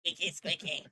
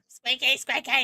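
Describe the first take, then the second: First: Said in the usual way. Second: Higher squeaky voice. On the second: Shown as a demonstration. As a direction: squeak the words high. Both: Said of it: "squeaky voices".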